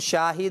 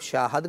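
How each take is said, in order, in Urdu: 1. آخری 'd' سے پہلے کی مصوتہ 'i' ہے۔ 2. آخری 'd' سے پہلے کی مصوتہ 'a' ہے۔ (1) "آئین کلمے پہ کسرہ ہوتا ہے" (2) "اس کسرہ زیر کو یہ زبر سے بدل دیتے ہیں"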